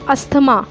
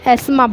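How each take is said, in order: First: The th sound is pronounced. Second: The th sound is silent. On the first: The speaker calls it wrong. "ज़्यादातर सारे लोग क्या करते हैं" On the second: The speaker calls it right. "असल में ये एस्मा होता है"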